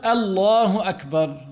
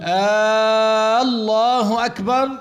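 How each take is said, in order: First: "الله أكبر" with a short opening hamza; correct takbir. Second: "آه، الله أكبر" with a long drawn-out opening, rising like a question; lengthened hamza. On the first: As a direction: start "الله" without any stretch. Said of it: "هكذا يلفظ هذه الألف". (همزة قصيرة بلا مد) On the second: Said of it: "إن مد هذه الألف". (مد همزة لفظ الجلالة كأنه استفهام) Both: Shown as a demonstration.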